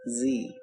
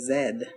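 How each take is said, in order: First: It is said the American way, like zee. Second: It is said the British way, like zed.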